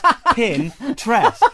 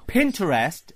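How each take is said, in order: First: It sounds like 'pin' plus the word 'interest'. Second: It sounds like the name Pinter plus 'est'. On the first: The speaker calls it right. "it's a play on the word interest" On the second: The speaker calls it wrong. "is like the writer Harold Pinter"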